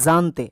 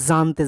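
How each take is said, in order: No difference in how they are said.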